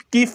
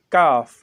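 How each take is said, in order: First: "कीफ" with a long ee vowel; common misreading. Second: "काफ" with a long, open aa; corrected letter name. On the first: Teacher quotes the usual reading to correct it, "कीफ" with ee. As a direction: say "कीफ" with ee in the middle. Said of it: "इसको हम कीफ पढ़ते हैं". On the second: Teacher corrects learners' reading, "काफ" with long aa. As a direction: say "काफ" with aa, not ee. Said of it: "लेकिन यहाँ पढ़ना है काफ". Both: Shown as a demonstration.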